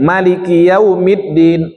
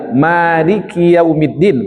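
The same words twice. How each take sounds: First: The first vowel 'ma' is held short. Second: The first vowel 'ma' is drawn out long. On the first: The verse has one letter fewer. "Malik, ma-nya pendek" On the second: The verse has one letter more. "Berarti ma-nya panjang"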